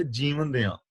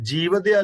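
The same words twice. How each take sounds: First: ਜੀਵਨ ਦਿਆਂ as two words, nasal ਦਿਆਂ; correct reading. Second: ਜੀਵਦਿਆ as one word, the wrong way, louder; wrong reading. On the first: Teacher gives the right reading, ਜੀਵਨ ਦਿਆਂ split in two. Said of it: "ਇਹਨੂੰ ਪੜ੍ਹਨਾ ਹੈ". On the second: Teacher shows the misreading ਜੀਵਦਿਆ, run together as one word. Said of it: "ਇਹ ਜੀਵਦਿਆ ਨਹੀਂ". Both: Shown as a demonstration.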